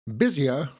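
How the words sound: The R sound is dropped.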